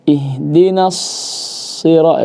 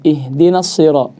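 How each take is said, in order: First: The s sound is held too long. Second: The s sound is held too briefly. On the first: "itu kebanyakan" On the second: "jangan kurang"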